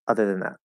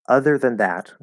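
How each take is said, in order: First: It is said quickly with a reduced vowel. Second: It is said slowly with a fully opened vowel. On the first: "If I speak really quickly" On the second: "if I'm speaking pretty clearly"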